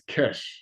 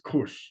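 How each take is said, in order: First: The vowel sounds like 'eh', as in 'mesh'. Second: The vowel sounds like 'oo', as in 'push'. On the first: The speaker calls it wrong. "they used to pronounce this Kesh" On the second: The speaker calls it right. "but it's Kush"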